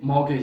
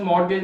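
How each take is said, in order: First: मॉर्गेज said calmly as the right form; correct pronunciation. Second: मॉर्गेज said louder, the rejected version; wrong pronunciation. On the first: Teacher giving the correct मॉर्गेज. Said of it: "ये मॉर्गेज है". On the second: Teacher loudly rejecting the wrong मॉर्गेज. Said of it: "ये लफ्ज़ मॉर्गेज नहीं है". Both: Shown as a demonstration.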